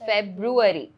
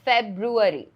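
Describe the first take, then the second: No difference in how they are said.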